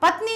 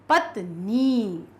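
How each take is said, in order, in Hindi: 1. यह शब्द छोटी 'इ' से खत्म होता है। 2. यह शब्द बड़ी 'ई' से खत्म होता है। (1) "अब पत्नी नहीं" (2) "बड़ी का आएगा"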